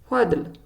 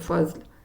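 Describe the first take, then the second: First: The middle consonant is a d-like sound. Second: The middle consonant is a z-like sound. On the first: The speaker calls it right. "And the other one is fadl" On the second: The speaker calls it wrong. "We don't say fazl"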